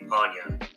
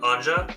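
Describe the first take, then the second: First: The middle consonant is a 'y' sound. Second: The middle consonant is a 'j' sound. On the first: The name follows its Germanic origin. "if we're going by like Germanic pronunciation" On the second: The name is pronounced straight, as if it were English. "it's probably An- Anja"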